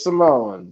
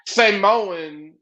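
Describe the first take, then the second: First: The syllables are run smoothly together. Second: The syllables are drawn apart and separated. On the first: It is the normal modern way to say it. The speaker calls it right. "Just say it all together" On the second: It sounds old-fashioned and mocking. The speaker calls it wrong. "You're saying it like old school wrestling used to say it"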